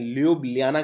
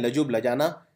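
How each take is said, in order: First: It is said smoothly as lyoo-blyah-na. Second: It is said in parts as la-joob la-jah-na. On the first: "ल्यूब्लियाना करते हैं वैसे" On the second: "कुछ लोग बोलते हैं लजुब लजाना"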